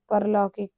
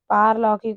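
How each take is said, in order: First: परलौकिक with short first a; wrong pronunciation. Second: पारलौकिक with long first aa; correct pronunciation. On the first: Teacher reading out the error, परलौकिक with short a. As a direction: say परलौकिक starting par. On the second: Teacher correcting the word, पारलौकिक with long aa. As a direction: say पारलौकिक starting paar. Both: Shown as a demonstration. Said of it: "पारलौकिक होता है".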